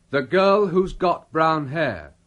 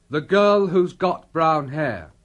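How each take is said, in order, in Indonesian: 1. Who has disingkat menjadi satu suku kata. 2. Who has disingkat menjadi satu suku kata.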